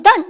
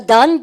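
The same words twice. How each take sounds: First: "done" falling to a full stop; answering done. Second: "done" with the pitch rising to ask; questioning done. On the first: Teacher contrasting question with answer, this one falling. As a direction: drop "done" down as a reply. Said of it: "됐나". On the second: Teacher contrasting question with answer, this one rising. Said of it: "끝을 잘 보십시오". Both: Shown as a demonstration.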